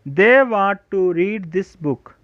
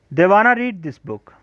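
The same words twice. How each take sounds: First: Want to kept apart, very slow; full form want to. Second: Wanna blended as one word, slow; wanna contraction. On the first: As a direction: read it word by word, uncontracted. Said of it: "contraction के बाद". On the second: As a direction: show how smooth the contraction sounds. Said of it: "contraction के बाद किस कदर language fluent". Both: Shown as a demonstration.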